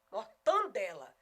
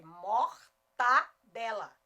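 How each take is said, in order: First: MORTANDELA slowly with a loud nasal TAN; mocked regional pronunciation. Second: MORTADELA loud and syllable by syllable, "mor-TA-DE-la"; correct standard pronunciation. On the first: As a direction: stress the intrusive N in MORTANDELA. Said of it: "Aonde que encontrar esse N?". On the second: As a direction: slowly separate an oral TA in MORTADELA, no N. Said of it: "na hora de escrever é mortadela". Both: Shown as a demonstration.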